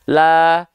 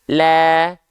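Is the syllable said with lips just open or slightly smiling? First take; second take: just open; slightly smiling. First: The vowel is said with the mouth just open. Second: The vowel is said with lips slightly smiling. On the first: The speaker calls it wrong. "hanya buka mulut saja" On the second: The speaker calls it right. "sambil seolah tersenyum sedikit"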